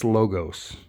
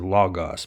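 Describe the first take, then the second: First: The word has two hard O vowels. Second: The word does not have two hard O vowels. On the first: The speaker calls it right. "It's two hard O's" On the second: The speaker calls it wrong. "Some people say logos, but I think they're wrong"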